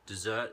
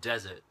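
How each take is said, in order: First: It is pronounced as the verb form. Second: It is pronounced as the noun form. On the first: To abandon something. "is a verb" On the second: A dry sandy place. "is a noun"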